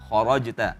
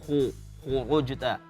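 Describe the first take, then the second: First: The first vowel is said with a wide-open mouth. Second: The first vowel is said with a narrow mouth. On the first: The speaker calls it right. "kha buka" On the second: The speaker calls it wrong. "Kurang terbuka mulutnya tadi"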